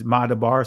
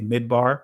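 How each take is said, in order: First: The word is said in a non-Israeli pronunciation. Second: The word is said in the Israeli pronunciation. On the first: "It's Madabar" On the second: "Some would say Midbar in the Israeli pronunciation of it"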